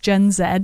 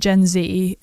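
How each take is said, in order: First: The letter Z is pronounced zed. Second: The letter Z is pronounced zee. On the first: This is the English way to say it. "in England it's Gen Z" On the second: This is the American way to say it. "as Americans say Gen Z"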